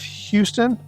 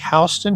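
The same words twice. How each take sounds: First: The name is said in a general pronunciation. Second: The name is said the Georgia way.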